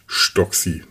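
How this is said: The name is said with a Franconian accent.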